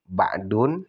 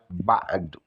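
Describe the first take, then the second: First: The word ends in an -un sound. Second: The word ends in a short u vowel. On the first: The speaker calls it wrong. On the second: The speaker calls it right.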